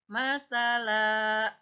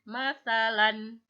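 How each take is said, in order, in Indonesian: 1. Kata ini berakhir dengan vokal terbuka yang panjang. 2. Kata ini berakhir dengan vokal pendek dan n. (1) "tetapi menjadi masalah, dipanjangkan" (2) "bukan masalan"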